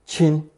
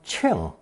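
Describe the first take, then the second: First: The syllable has a high level tone. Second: The syllable has a falling tone ending in ng. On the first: "beginning with first tone" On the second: "Fourth tone 庆 with the nasal ng sound"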